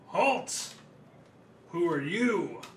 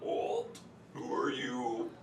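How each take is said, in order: First: It is said in a normal voice. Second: It is said in a put-on bullywug voice.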